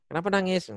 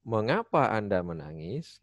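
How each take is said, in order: First: High, loose everyday "Kenapa nangis?"; casual free intonation. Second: Very slow "Mengapa", drawn out in an arc, "menangis" rising at the end; textbook question intonation. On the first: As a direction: toss off "Kenapa nangis?" high, as in daily chat. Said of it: "Intonasinya jadi berubah, jadi bebas". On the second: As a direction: stretch "Mengapa Anda menangis?" like a formal model sentence. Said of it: "padahal kaidah awalnya". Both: Shown as a demonstration.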